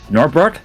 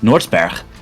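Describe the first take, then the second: First: The name is said with English pronunciation. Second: The name is said with Dutch pronunciation.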